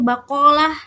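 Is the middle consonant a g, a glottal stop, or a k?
k. The middle consonant is a k sound. "dibaca dalam M S A itu bakolah"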